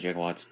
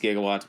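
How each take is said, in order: First: The word begins with a j sound. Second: The word begins with a hard g sound. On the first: This is how the film says the word. "they pronounce it" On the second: This is the standard form of the word. "Technically it's"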